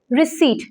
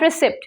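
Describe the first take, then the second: First: The p sound is silent in the word. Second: The p sound is pronounced in the word. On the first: The speaker calls it right. "P in this word is silent" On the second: The speaker calls it wrong. "not receipt"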